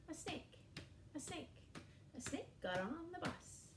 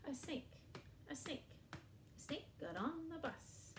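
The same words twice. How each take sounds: The two takes are said the same way.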